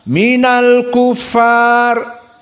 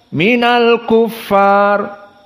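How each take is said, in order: No difference in how they are said.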